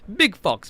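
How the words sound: It is said in a semi-Jamaican accent. "I'm just saying it in a, in a semi-Jamaican way"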